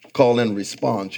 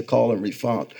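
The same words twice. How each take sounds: First: Said in the usual way. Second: Refon- garbled, cut short before response; tongue slip. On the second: Real, not acted. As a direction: stumble on refon- and stop.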